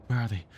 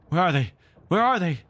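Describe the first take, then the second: First: Said in the usual way. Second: Echoing, louder and higher each time; savage cry. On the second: A narrator's reading. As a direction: call out savagely like an echo. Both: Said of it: "echoes seemed to cry savagely".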